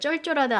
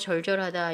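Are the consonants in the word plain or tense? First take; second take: tense; plain. First: The consonants are said tense and hard. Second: The consonants are said plain and soft. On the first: The speaker calls it wrong. "쩔쩔하다 아니에요" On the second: The speaker calls it right. "절절하다 이렇게 되는 겁니다"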